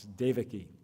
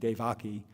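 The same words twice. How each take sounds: First: The stress is on the first syllable. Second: The stress is on the second syllable. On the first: The speaker calls it right. "It's Devaki" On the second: The speaker calls it wrong. "you tend to emphasize the, the second syllable there. But no, that's incorrect"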